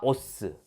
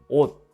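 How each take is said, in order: First: The word ends with an added seu syllable. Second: The word ends in a clipped t stop. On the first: The speaker calls it wrong. "설마" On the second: The speaker calls it right. "디귿으로 발음됩니다"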